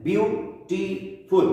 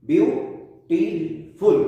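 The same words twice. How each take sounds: First: ब्यूटीफुल said slowly, each syllable apart, falling at the end; slow syllable demo. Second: ब्यूटीफुल said slowly, syllable by syllable, rising at the end; slow syllable demo. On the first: Teacher shows students the three syllables, slowly. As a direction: spell out ब्यूटीफुल by syllables, slowly, tune dropping. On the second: Teacher repeats the word for students, slowly and rising. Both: Shown as a demonstration. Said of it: "ब्यूटीफुल में तीन syllables मौजूद हैं".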